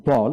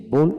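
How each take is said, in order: First: বল with an open "aw" vowel; American vowel. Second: বোল with a rounded "o" vowel; British vowel. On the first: Teacher models the American form for learners, American vowel. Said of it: "প্রথমটি American উচ্চারণ". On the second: Teacher contrasts the British form for learners, British vowel. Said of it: "ব্রিটিশে বোল উচ্চারণ করা হয়". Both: Shown as a demonstration.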